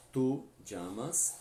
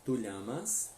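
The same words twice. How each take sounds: First: "llamas" with ll said like j in jam; slow "Tu llamas", ll as dj; Rioplatense ll. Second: "llamas" with ll as a palatal ly sound; Spain-style "tu llamas", ll like lli in million; Spanish ll. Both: Shown as a demonstration. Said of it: "Ou ainda na pronúncia espanhola".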